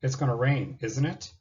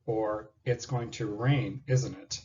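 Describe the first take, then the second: First: "isn't it?" lifts up at the end like a real question; rising tag question. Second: "isn't it?" drops at the end, slow and sure; falling tag question. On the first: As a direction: let "it" rise, genuinely asking. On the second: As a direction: let "isnt" fall as if expecting agreement. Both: Shown as a demonstration. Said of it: "Tag question".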